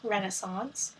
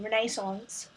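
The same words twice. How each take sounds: First: It is said in an American accent. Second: It is said in a British accent.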